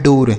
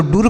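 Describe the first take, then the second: First: डोर with a long oh, the correct "door" here; o vowel in डोर. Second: डूर with a long oo, as a mistaken reading; wrong oo vowel in डूर. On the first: Teacher giving children the right reading, डोर with long o. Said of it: "ओ की मात्रा पढ़ेंगे". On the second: Teacher ruling out this reading, डूर with long oo. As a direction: make the vowel of डूर oo instead of o. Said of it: "ऐसे बिल्कुल नहीं पढ़ेंगे". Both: Shown as a demonstration.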